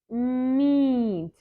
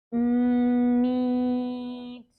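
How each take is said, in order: First: Quick and short; fast. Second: Drawn out slowly. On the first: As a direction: say Meet briskly. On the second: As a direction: stretch Meet out long. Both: Shown as a demonstration. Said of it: "slow and then fast".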